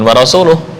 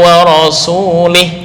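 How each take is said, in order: First: The final syllable has a u vowel. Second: The final syllable has an i vowel. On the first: The messenger also disowns the idolaters. The speaker calls it right. "bukan wa rasuluh" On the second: The messenger is among those Allah is free of. The speaker calls it wrong. "bukan wa rasuluh"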